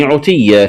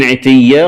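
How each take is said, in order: First: عتيا said "utiyya"; damma on ayn. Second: Said in the usual way. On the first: Shown as a demonstration. Teacher showing the variant, عتيا with opening u. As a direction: round the first vowel of عتيا to u. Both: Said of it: "قرأها بضم العين".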